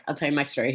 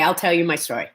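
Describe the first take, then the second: First: Much softer and lower, almost to herself; soft, low storyteller's murmur; hushed repeat. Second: Said in the usual way. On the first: Shown as a demonstration. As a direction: drop the voice right down, like settling in to tell it. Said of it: "Here we go". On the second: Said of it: "okay, okay".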